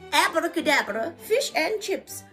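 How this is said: It is said in a posh, queenly put-on voice. The speaker calls it right. "in a Queen voice"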